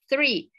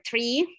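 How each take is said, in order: First: The word begins with a soft th sound. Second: The word begins with a hard t sound. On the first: The speaker calls it right. "Entonces uno dice, no, it's three" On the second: The speaker calls it wrong. "en vez de decir, dicen, t"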